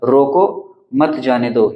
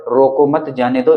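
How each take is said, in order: First: रोको alone, a clear break, then मत जाने दो; pause after रोको. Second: रोको मत as one phrase, then जाने दो; no break between रोको and मत; रोको मत grouped together. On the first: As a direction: halt after रोको, run मत जाने दो together. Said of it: "यहाँ पर हमने अल्प विराम लगा दिया". (रोको के बाद ठहराव) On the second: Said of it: "इसका मतलब ये हो गया कि इसको रोको मत जाने दो". (रोको मत एक साथ) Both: Shown as a demonstration.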